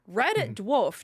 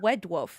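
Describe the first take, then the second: First: The first word starts with an R sound. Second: The first word starts with a W sound. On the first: The speaker calls it right. "pronunciation F-ups" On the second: The speaker calls it wrong. "To be fair, it was Wed"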